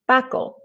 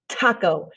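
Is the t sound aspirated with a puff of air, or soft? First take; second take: soft; aspirated. First: The t is soft with no puff. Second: The t is harsh with a strong puff. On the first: This is the Spanish way of saying it. "kind of like a soft D slash T H" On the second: This is the English way of saying it. "It's really harsh sounding and the um, you know spit is coming out of your mouth"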